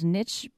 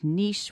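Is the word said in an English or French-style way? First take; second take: English; French. First: The word is said the anglicized English way. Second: The word is said the French-style way. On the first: This is the habitual pronunciation. "I've always pronounced it as niche" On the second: This sounds pretentious. "which to me sounds pretentious"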